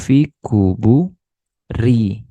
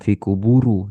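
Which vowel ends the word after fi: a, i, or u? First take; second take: i; u. First: The word ends with an i vowel. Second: The word ends with a u vowel. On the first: The speaker calls it right. "dibaca kasroh atau majrur" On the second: The speaker calls it wrong.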